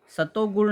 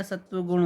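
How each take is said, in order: First: सतोगुण with an o after "sat"; wrong word form. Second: सत्वगुण with "tva" in the middle; correct word form. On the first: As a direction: say सतोगुण as sa-to-gun. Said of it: "नहीं होता है भैया". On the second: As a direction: say सत्वगुण as sat-va-gun. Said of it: "होता है". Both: Shown as a demonstration.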